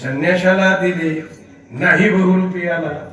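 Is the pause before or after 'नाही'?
before. The pause falls before the word 'नाही'. It was given to the renunciant, not the impersonator.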